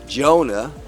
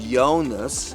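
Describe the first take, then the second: First: The name begins with a J sound. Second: The name begins with a Y sound. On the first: "they don't have that J sound in their language" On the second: "they would say"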